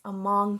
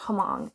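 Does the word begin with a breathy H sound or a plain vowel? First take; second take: plain vowel; breathy H. First: The word starts straight on the vowel. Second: The word starts with a breathy H sound. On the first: The speaker calls it right. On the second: The speaker calls it wrong. "I mispronounced this earlier"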